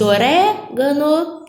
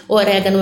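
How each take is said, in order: First: Orégano with RÉ drawn out and raised; teacher sounding out o-RÉ-gano, leaning on RÉ; stress on the antepenultimate. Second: Said in the usual way. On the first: Shown as a demonstration. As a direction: stretch and lift the RÉ in orégano, then finish gano. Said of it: "antepenúltima, proparoxítona. É o caso de". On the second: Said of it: "antepenúltima, proparoxítona".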